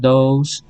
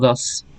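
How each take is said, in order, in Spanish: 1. La palabra se dice despacio y completa. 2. La palabra se dice rápido y cortada. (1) "En forma lenta se pronuncia" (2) "en forma rápida pues nomás sería como"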